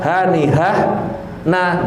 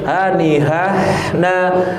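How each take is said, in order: First: The phrase is cut off with a break. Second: The phrase flows on without a break. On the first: The speaker calls it wrong. "bukan hanihah nah jangan" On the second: The speaker calls it right. "harus hanihah na"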